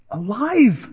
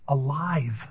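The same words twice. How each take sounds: First: Exclaimed. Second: Quiet. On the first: Preacher repeats word with force. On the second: First quiet statement of word. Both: Real, not acted.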